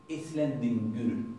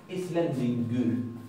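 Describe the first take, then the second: No difference in how they are said.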